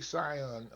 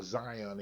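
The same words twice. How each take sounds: First: "Zion" begun with an S sound; soft S start. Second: "Zion" begun with a buzzed Z; voiced Z start. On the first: Speaker unsure of the player's name, "Zion" said with an S. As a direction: say "Zion" as Sigh-on, hissless z replaced by s. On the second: Speaker correcting the player's name, "Zion" said with a Z. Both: Shown as a demonstration. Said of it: "Is it Zion or Zion?".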